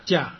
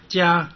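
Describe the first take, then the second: First: 加 with its vowel cut short; brief, stopped 加; short syllable. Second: Said in the usual way. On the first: Shown as a demonstration. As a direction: end 加 abruptly. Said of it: "它的音呢缩短变成短促音". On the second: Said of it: "所以其实是加加".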